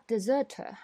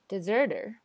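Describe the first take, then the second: First: British deserter, no r's; British English. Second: American deserter with r's; American English. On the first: Teacher compares deserter in British English. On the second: Teacher compares deserter in American English. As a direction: deserter with a flapped t and strong r's. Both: Shown as a demonstration. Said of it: "它们只有R的区别吗".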